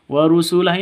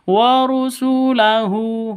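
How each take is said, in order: First: The word ends on a stopped h sound. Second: The word ends with an added u vowel. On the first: The reader stops at the end of the verse. The speaker calls it right. "hunya dibaca sukun, mati" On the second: The reader carries on without stopping. The speaker calls it wrong. "Jadi tidak dibaca warusulahu"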